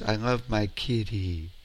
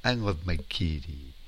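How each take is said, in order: Both takes have the same delivery.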